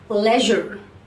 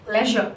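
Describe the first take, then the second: First: The final R sound is clearly pronounced. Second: The final R is dropped, ending in schwa. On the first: "leisure in America" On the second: "Whereas in British, we say it as leisure"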